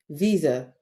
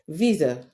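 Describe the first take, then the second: First: The s is said as a buzzing z sound. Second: The s is said as a buzzing z sound.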